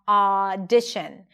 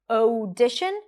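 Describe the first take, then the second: First: The first vowel is a single open ah sound. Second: The first vowel is split into two separate sounds. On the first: The speaker calls it right. "it's only one sound, ah" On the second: The speaker calls it wrong. "it's not audition"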